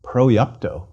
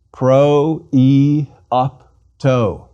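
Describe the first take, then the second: First: Proiopto run together as one word; faster. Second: Pro, e, opto slowly, each syllable held and separate; four syllables. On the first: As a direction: say Proiopto more quickly, joining the four syllables. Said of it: "And faster". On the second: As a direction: sound out Pro, e, opto one syllable at a time. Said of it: "Four syllables". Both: Shown as a demonstration.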